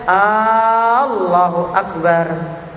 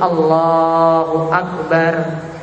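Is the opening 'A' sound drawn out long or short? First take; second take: long; short. First: The opening 'A' vowel is drawn out long. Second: The opening 'A' vowel is kept short. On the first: It turns into a question asking whether God is greatest. The speaker calls it wrong. "tidak Allahu Akbar. Bukan A-nya depan yang panjang" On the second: It declares that God is the greatest. The speaker calls it right. "jadi tidak ada mad di situ. Jadi Allahu Akbar"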